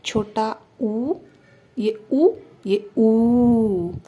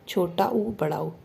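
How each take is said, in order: First: Teacher modelling a long ऊ; correct long oo. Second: छोटा ऊ and बड़ा ऊ said alike, no length difference; the careless version of ऊ; wrong way. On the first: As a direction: stretch the big ऊ right out. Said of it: "कैसे बोलोगे?". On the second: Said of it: "नहीं, गलत है।". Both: Shown as a demonstration.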